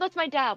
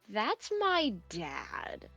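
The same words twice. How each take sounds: First: It is said in a happy, upbeat way. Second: It is said unhappily, falling at the end. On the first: The person is glad to see their father. "they're a bit more happy" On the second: The person is not pleased to see their father. "this is where the emotion of I'm not happy shows"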